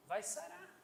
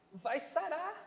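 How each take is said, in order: First: Vai sarar repeated much softer, rising at the end; soft echo. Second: Said in the usual way. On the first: Shown as a demonstration. Preacher gently repeats the healing promise, softly. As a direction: let Vai sarar fall to a gentle hush. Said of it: "softer echo". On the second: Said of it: "repeated promise".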